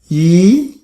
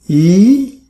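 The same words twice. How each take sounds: First: The pitch rises from middle to high. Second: The same.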